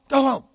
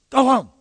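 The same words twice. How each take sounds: No difference in how they are said.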